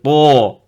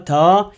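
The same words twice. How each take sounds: First: The t sound is heavy and emphatic. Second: The t sound is plain and light. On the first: The speaker calls it right. "c'est ta" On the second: The speaker calls it wrong. "c'est pas ta"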